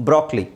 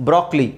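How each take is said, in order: No difference in how they are said.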